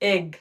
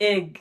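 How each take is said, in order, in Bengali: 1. স্বরধ্বনিটির উচ্চারণ 'eh'-র মতো। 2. স্বরধ্বনিটির উচ্চারণ 'eh'-র মতো।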